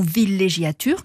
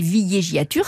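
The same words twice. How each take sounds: First: The double L sounds like a plain L. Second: The double L sounds like a Y glide. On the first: The speaker calls it right. "on dit bidonville ou villégiature" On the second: The speaker calls it wrong. "qui se prononceraient logiquement"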